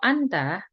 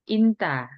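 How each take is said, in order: First: The word begins with an 'a' vowel. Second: The word begins with an 'i' vowel. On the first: It is the standard Arabic form. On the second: It is the colloquial dialect form.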